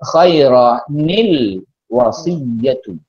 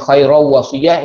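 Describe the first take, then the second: First: Both n and l are kept, joined by i. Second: The l of the article is dropped. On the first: The speaker calls it right. "maka dibaca khairanil wasiyatu" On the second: The speaker calls it wrong. "hilang alif lam"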